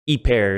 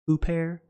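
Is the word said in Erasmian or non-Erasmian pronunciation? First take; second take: non-Erasmian; Erasmian. First: It is said in a non-Erasmian pronunciation. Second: It is said in the Erasmian pronunciation. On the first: "Hyper is how I pronounce it" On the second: "if you're using Erasmian, you probably pronounce it huper"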